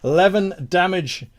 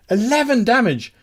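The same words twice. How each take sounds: First: Said in the usual way. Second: Higher, punchier exclamation; excited announcement. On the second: Real, not acted. Game master hailing the player's big damage, excited. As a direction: announce the number with relish.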